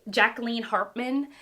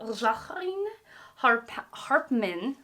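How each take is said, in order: First: The name is said with an American accent. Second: The name is said with a French-like accent.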